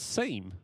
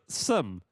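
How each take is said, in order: First: The vowel is long, like 'seem'. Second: The vowel is short, like 'sim'. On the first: The speaker calls it right. "it turned out it was a seam" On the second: The speaker calls it wrong. "Americans can't pronounce seam; they pronounce it sim"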